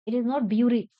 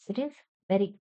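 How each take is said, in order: First: Louder bury said as byoo-ry; wrong reading. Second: Bury said like very; right pronunciation. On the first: Teacher shows the wrong bury, then corrects it. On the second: Teacher models bury rhyming with very. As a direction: rhyme bury with very. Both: Shown as a demonstration.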